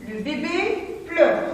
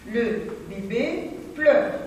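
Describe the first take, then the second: First: Higher, slow reading, stress on bébé; expressive reading. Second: Slow repeat with no lift, stress on pleure; plain slow repeat. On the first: Teacher reading an example sentence to pupils, higher and slow. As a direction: lift bébé high and read slowly. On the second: Teacher repeating the sentence for pupils, slow and plain. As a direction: say it again slowly, settle on pleure. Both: Shown as a demonstration. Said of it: "La phrase suivante".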